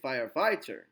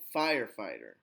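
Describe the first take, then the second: First: The stress is on the second part, fighter. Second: The stress is on the first part, fire. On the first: The speaker calls it wrong. "You wouldn't say firefighter" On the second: The speaker calls it right. "stress on the first part of the noun and go down"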